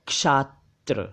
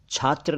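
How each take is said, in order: First: क्षात्र drawn out as "kshaat-tra"; correct ksh onset. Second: छात्र said with chh, "chhatra"; chh onset. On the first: Teacher correcting learners: क्षात्र slowly as "kshaat-tra". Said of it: "ये है". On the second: Teacher contrasting the word for student: छात्र as "chhatra". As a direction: say छात्र starting with aspirated chh. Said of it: "छात्र नहीं". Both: Shown as a demonstration.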